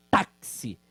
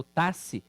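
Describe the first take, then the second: First: "táxi" with the X as K S, "taksi"; correct pronunciation. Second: "taxi" with the X as a plain S, "tasi"; deliberately wrong "taxi", no K sound; wrong pronunciation. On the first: Teacher showing students the real sound of táxi, as taksi. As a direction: say "táxi" clearly, X as KS. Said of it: "eu falo táxi". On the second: Teacher showing the wrong reading of táxi, as tasi. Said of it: "eu não falo taxi". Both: Shown as a demonstration.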